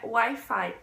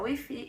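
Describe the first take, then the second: First: It is pronounced the English way, 'why-fye'. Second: It is pronounced the Spanish way, 'wee-fee'. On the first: This is the original form. "Wi-Fi não é Wi-Fi" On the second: This is how people in Spain say it. "é Wi-Fi e eles falam isso e eles defendem isso"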